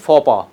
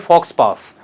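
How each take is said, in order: First: The final consonants are silent, like foe pah. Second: The final consonants are pronounced, like fox pass. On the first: The speaker calls it right. "it is faux pas" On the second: The speaker calls it wrong. "never say fox pass"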